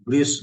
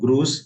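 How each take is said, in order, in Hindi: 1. स्वर गोल होंठों वाला आगे का ü ध्वनि है। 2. स्वर सादा पीछे का oo ध्वनि है। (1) "इसका प्रोनाउंसिएशन थोड़ा ध्यान देना चाहिए" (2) "इट्स नॉट ग्रूस"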